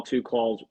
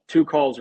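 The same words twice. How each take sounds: First: Said in the usual way. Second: "two calls" said again higher and louder, punching "two"; emphatic repeat. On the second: Real, not acted. Agent to viewers, stressing "two calls" with emphasis. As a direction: hit "two calls" harder the second time. Repeating to drive point home.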